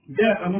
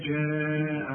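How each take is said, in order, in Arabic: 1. الحرف الأول صوته جيم قاسية، مثل g. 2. الحرف الأول صوته جيم ناعمة، مثل j. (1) "جاء لا" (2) "عطش الجيم دائما"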